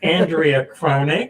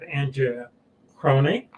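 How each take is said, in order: First: The name is said sharply and crisply. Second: The name is said softly, without crispness.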